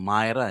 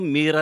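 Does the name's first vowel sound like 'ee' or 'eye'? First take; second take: eye; ee. First: The first vowel sounds like 'eye'. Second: The first vowel sounds like 'ee'. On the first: This is how the owners pronounce it. "ang pronunciation pala nila ata ano, Myra" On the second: This is how the speaker habitually says it. "ang palaging sinasabi ko rito Mira Theater"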